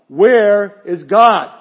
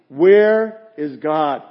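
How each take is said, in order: First: It is said sterner and louder than before. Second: It is said in a stern, firm voice.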